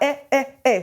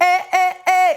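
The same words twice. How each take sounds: First: Each sound gets its own separate jolt of breath. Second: The three sounds share one steady push of breath. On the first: The speaker calls it wrong. "et pas eh, eh, eh. C'est pas trois à-coups au niveau du soutien" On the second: The speaker calls it right. "c'est le même soutien"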